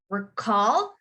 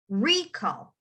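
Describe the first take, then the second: First: "recall" with "-call" stressed, rising; stress on second syllable. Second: "recall" with "RE-" stressed, falling away; stress on first syllable. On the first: Teacher contrasting verb with noun, "recall" stressed on -call. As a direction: hit the end of "recall". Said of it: "emphasize the end". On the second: Teacher contrasting noun with verb, "recall" stressed on RE-. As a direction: hit the start of "recall". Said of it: "emphasize the beginning". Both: Shown as a demonstration.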